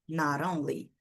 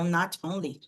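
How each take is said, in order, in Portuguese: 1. O 't' soa como um 'r' suave e rápido. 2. O 't' é pronunciado claramente como 't'. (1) "eles costumam fazer esse sonzinho, né, de r" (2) "existem sotaques em que você pronuncia ali mais o T"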